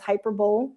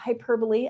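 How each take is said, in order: First: The word is pronounced letter by letter, as spelled. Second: The word is pronounced in the standard way. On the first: The speaker calls it wrong. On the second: The speaker calls it right.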